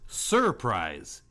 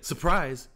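First: The R in the first syllable is pronounced. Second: The R in the first syllable is dropped. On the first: This is an unusually careful enunciation. "He pronounces the R in that sense" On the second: This is the usual casual way to say it. "instead of saying surprise"

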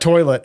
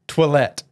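First: It sounds like the English word toilet. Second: It is said with a French pronunciation. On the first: The speaker calls it wrong. "It's not toilet" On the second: The speaker calls it right. "it's toilette"

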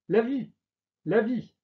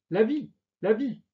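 No difference in how they are said.

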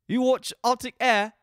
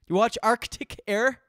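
First: It is said in a put-on British accent. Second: It is said without a British accent.

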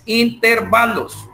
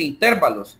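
First: The stress falls on the second-to-last syllable. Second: The stress falls before the second-to-last syllable. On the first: The speaker calls it right. "la palabra correcta es intervalos. Intervalos es una palabra grave" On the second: The speaker calls it wrong. "Yo he oído a bastantes personas que dicen intervalos. Y no"

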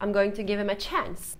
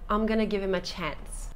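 First: 'Going to' is said in full. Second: 'Going to' is reduced to 'gonna'.

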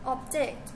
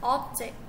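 First: The stress is on the second syllable. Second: The stress is on the first syllable. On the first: It is a verb: to disagree. "in verb stage on the second syllable" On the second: It is a noun: a thing. "in noun stage on the first syllable"

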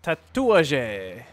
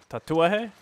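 First: The j is not sounded like an h. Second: The j is sounded like an h. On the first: The speaker calls it wrong. "Which I probably said wrong" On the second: The speaker calls it right. "it's a J in Spanish, so that's an H, huh? Or pronounced like an H"

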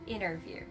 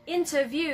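First: It is said with an American pronunciation. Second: It is said with a British pronunciation. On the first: "in American English, we just say interview" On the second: "Interview is more like British or Australian"

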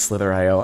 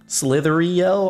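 First: The ending is said as 'slither-eye-oh'. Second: The ending runs together as 'slithery-oh'. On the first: The speaker calls it right. "I think it's Slither.io" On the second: The speaker calls it wrong. "I don't think that's how you pronounce it"

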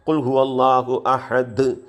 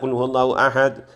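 First: The final consonant is released strongly with an echo. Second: The final consonant is cut short without echo. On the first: The speaker calls it right. "ഇത്തിരി സ്ട്രോങ് ആയിട്ട് ഉച്ചരിക്കണം" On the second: The speaker calls it wrong. "അങ്ങനെ ഓതാൻ പാടില്ല"

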